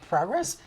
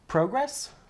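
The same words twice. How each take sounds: First: It is said in the speaker's usual accent. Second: It is said in a Canadian accent.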